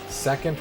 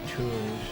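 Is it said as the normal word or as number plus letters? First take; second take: normal word; number plus letters. First: It is said as the usual word 'second'. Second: It is said as 'two' followed by 'nd'.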